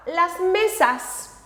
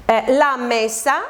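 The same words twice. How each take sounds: First: "las mesas" slow and higher, leaning on the final S of "mesas"; stress on the plural S. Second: Said in the usual way. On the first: Shown as a demonstration. Teacher showing students the plural ending, slow and stressed. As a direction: stretch "mesas" so the added S stands out. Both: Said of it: "solamente añadimos una S".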